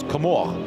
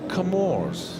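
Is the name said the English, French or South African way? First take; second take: French; South African. First: The name is said the French way. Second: The name is said the South African way. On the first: "the French uh, pronunciation is Comore" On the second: "they refer to them as the Comores"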